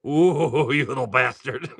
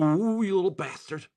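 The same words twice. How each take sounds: First: Laughing mock insult. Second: Playful mock insult. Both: Real, not acted. Teasing a pulled card.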